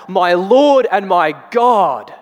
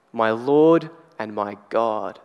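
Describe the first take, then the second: First: Slow, high, loud cry of faith; cries out. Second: Slow, low, steady stating of My Lord and my God; calm declaration. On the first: Retold or imitated. Thomas to Jesus, awed slow loud cry. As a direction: cry it out slowly in awe. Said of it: "He cries out". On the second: Shown as a demonstration. Preacher restating Thomas, a slow settled declaration. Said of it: "he is declaring who Jesus is".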